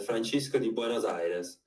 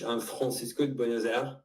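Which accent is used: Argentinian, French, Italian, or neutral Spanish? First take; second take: Italian; French. First: It is said in an Italian accent. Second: It is said in a French accent. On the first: "When I speak in Italian" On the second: "When I speak in French"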